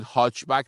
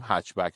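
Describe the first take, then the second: First: هاچ بک said with a long Persian "haach"; Persianized pronunciation. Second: هچ بک said as English "hatchback", short a; English pronunciation. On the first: Reviewer showing viewers the Persian "haach back". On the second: Reviewer correcting viewers with the English "hatchback". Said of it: "لغت انگلیسی تلفظش انگلیسیه". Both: Shown as a demonstration.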